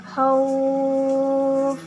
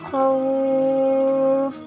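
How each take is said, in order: The two takes are said the same way.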